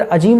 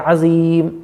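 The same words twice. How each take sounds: First: "अजीम" with a j sound; mistaken consonant. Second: Slow "अज़ीम" with a z sound and long "ई"; correct consonant. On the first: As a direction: make the middle of "अजीम" a plain "ज". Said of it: "अजीम नहीं है". ("अजीम" में ज़ की जगह ज) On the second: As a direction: buzz the "ज़" and stretch "अज़ीम". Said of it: "जा है". ("अज़ीम" ज़ के साथ, खींचकर) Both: Shown as a demonstration.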